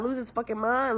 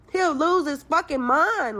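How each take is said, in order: First: Said in the usual way. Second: Higher, louder and slower, leaning on he'll; emphatic repeat. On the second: Real, not acted. Caller complaining about the ex, emphatic exasperated repeat. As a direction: hammer the point home.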